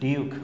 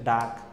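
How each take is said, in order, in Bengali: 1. শব্দটি 'yoo' স্বরধ্বনি দিয়ে বলা হয়। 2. শব্দটি ছোট 'uh' স্বরধ্বনি দিয়ে বলা হয়। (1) "এখানে কিন্তু আমি উচ্চারণটা ভুল পড়ছি" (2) "এটা হচ্ছে ডাক"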